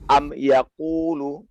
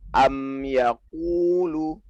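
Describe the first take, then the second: First: The m has little or no nasal hum. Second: The m has a full, held nasal hum. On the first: The speaker calls it wrong. "nggak boleh dibilang seperti ini" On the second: The speaker calls it right. "Sempurnakan dengung dia"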